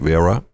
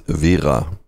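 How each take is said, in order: First: The name is said with English pronunciation. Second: The name is said with German pronunciation. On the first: "Anglophile people will normally say" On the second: "The correct pronunciation in German"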